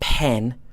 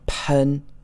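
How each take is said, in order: First: The vowel is a full English e sound. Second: The vowel is a shorter, more neutral sound. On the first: The speaker calls it wrong. "this P E N is not pronounced pen" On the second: The speaker calls it right. "but pen"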